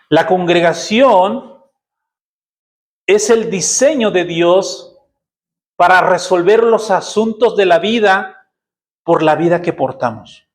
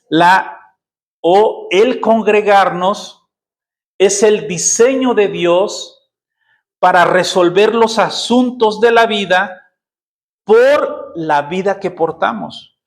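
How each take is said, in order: First: It is said at normal speed. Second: It is said more slowly.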